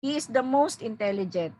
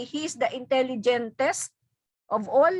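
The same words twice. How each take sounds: First: Said in the usual way. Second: Intelligentest said as one made-up word, tune rising on it; wrong form shown. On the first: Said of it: "It's wrong to say". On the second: Shown as a demonstration. Teacher models the wrong superlative intelligentest for students. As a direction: present intelligentest as a mistake to avoid. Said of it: "It's wrong".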